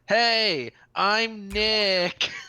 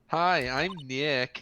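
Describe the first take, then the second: First: It is said loudly. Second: It is said quietly.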